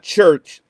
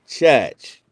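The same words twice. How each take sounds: First: The word is said in a plain standard accent. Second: The word is said in a Mississippi accent. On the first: "Not church" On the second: "that's Mississippi way of saying it"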